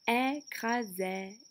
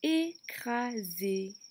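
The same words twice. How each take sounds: First: The final vowel is an open è sound. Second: The final vowel is a closed é sound. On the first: "Sinon j'aurais dit" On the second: "il n'y a pas le son que l'on cherche"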